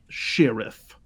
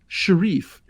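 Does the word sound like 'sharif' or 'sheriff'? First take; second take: sheriff; sharif. First: It is said like the ordinary word sheriff. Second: It is said like sharif, following the spelling.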